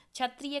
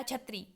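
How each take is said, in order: First: Said in the usual way. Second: छत्री ending in "ree", no "ya"; dropped consonant. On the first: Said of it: "क्षत्रिय कहना चाहिए". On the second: Shown as a demonstration. Teacher quoting a child's error, छत्री without final "ya". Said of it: "बालक कहता है".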